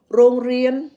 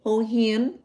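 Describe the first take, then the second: First: "rong rien" said with R sounds, higher and louder; Thai pronunciation. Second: "hong hien" said with H in place of R; Laotian pronunciation. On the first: Showing listeners the Thai word for school, Thai pronunciation with R. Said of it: "in Thai, um, the word school". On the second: Showing listeners the Laotian word for school, Lao pronunciation with H. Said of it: "In Laotian is". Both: Shown as a demonstration.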